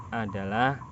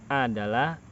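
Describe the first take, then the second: The two takes are said the same way.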